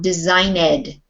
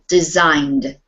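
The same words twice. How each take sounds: First: The ending is said as an extra syllable. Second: The ending is just a final D sound. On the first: The speaker calls it wrong. "this is not designed" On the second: The speaker calls it right. "two syllable, designed, with a D sound on the end, but not an E D"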